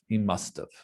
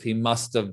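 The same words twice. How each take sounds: First: 'Have' is reduced and joined onto 'must'. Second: 'Have' is said as a full, separate word. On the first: "when we say it, it usually sounds more like must have" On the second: "people say must have"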